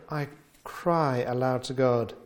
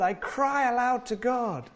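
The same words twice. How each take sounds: First: Said in the usual way. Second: High, straining cry of I cry aloud to God; near-shriek cry to God. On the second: Shown as a demonstration. Preacher voicing the psalmist's shriek, high and straining. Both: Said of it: "almost shriek to God".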